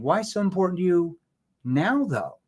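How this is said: The word "now" carries the stress. The question focuses on why it matters at this time. "Why would I emphasize the word now?"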